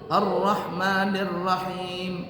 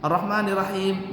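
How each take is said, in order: First: The doubled consonants are held long. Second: The doubled consonants are said short. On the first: The speaker calls it right. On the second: The speaker calls it wrong. "jangan Ar-Rahmanir Rahim nggak pakai tasydid"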